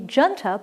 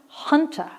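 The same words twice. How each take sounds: First: The word begins with a J sound. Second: The word begins with an H sound. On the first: The speaker calls it wrong. "looks like it should be junta" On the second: The speaker calls it right. "but it's pronounced junta. ... The J is an H"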